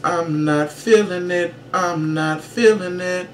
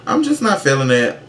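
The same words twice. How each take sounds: First: Higher, slow, purring diva voice, a touch softer. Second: Said in the usual way. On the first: Acted. Vlogger dismissing the new Jersey Shore season, in a slow, purring kitty cat voice. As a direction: purr it like a sultry pop diva. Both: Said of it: "in my [name] kitty cat voice".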